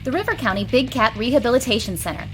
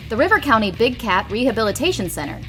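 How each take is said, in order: Both takes have the same delivery.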